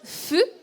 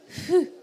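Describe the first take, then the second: First: It starts with a firm, clear F sound. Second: It starts with a soft, breathy blow between H and F. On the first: The speaker calls it wrong. "je ne prononce pas fu" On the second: The speaker calls it right. "c'est un mixte entre le H et le F"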